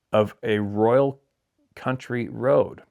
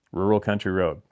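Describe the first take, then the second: First: "royal" said as written, roy-al; reading the misprint royal. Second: "Rural" said properly, ROOR-ul; corrected to rural. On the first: Reading the viewer's letter, slowly sounds out "royal". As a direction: read "royal" exactly as the letter spells it. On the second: Correcting the letter writer's word, says "Rural" plainly. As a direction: fix it, saying "Rural" as meant. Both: Shown as a demonstration. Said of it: "I think he meant rural".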